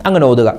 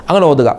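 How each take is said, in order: No difference in how they are said.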